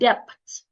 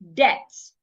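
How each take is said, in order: First: A B sound is pronounced in the word. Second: No B sound is pronounced in the word. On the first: The speaker calls it wrong. "will pronounce the B in the word" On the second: The speaker calls it right. "the letter B becomes silent"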